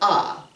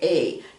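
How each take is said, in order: First: The letter is said with an open ah sound. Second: The letter is said with a long ay sound. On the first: The speaker calls it wrong. "not ah. We don't say ah" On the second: The speaker calls it right. "This is the long sound of A"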